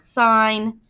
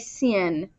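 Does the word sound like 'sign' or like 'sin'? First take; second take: sign; sin. First: It is said as the full word 'sign'. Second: It is said like the word 'sin'. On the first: The speaker calls it right. "you still say the whole word sine" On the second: The speaker calls it wrong. "don't say sin"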